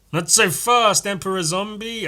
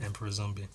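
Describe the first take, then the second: First: Higher, louder heroic call; heroic challenge. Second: Said in the usual way. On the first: Acted. Hero stopping Emperor Zombie, high and bold. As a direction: stop the villain in his tracks. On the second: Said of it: "Oh, that's his name".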